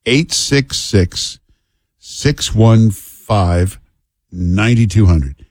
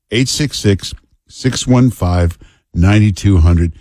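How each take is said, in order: First: Each digit spaced out and very slow; slow number read. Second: Said in the usual way. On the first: Shown as a demonstration.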